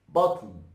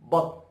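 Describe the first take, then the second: First: The word is said slowly and drawn out. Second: The word is said quickly and clipped. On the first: "if you pronounce it, you know, in a slow motion" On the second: "But if you're gonna say it fast"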